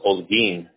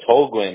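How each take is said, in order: First: The name begins without any H sound. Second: The name begins with an audible H sound. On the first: This is the original Spanish way of saying it. "it's pronounced without the H. It's silent" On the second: This is how the name is said locally. "It's Holguin out here"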